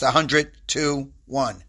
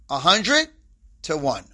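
First: The phrase runs together quickly without pausing. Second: There is a clear pause within the phrase. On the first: It could be heard as a single number. The speaker calls it wrong. "if I say it too quickly" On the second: It is heard as a ratio. The speaker calls it right. "I always put that pause in there"

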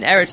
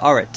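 First: The first vowel sounds like 'e'. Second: The first vowel sounds like 'a'. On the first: This is the ordinary form of the word. "an Eretz turns to Aretz" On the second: This is the form used at a major pause in the verse. "an Esnachta and also at the end of a Pasuk, an Eretz turns to Aretz"

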